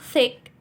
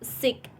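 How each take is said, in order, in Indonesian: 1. Kata ini diawali dengan bunyi th yang lembut. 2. Kata ini diawali dengan bunyi s yang mendesis. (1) "contoh kata terakhir yaitu thick" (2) "Orang Jepang biasa sebutnya dengan s"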